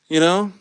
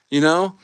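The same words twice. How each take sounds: The two takes are said the same way.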